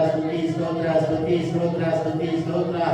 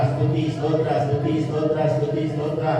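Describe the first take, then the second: The two takes are said the same way.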